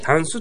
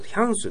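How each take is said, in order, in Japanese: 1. ピッチは低く始まる。高くてから低くじゃない。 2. ピッチは高く始まって、それから低く下がる。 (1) "ヒャンスとは言わないです" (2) "これもヒャンスです"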